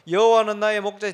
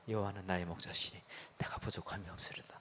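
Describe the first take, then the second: First: It is said in a loud voice. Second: It is said in a soft voice.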